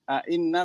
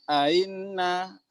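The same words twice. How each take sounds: First: The second hamzah is a full glottal stop. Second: The second hamzah is softened, not fully stopped.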